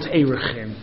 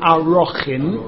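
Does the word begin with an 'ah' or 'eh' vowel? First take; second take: eh; ah. First: The word begins with an 'eh' vowel. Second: The word begins with an 'ah' vowel. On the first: The speaker calls it wrong. "not Erechin" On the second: The speaker calls it right. "Masechta is called Arochin"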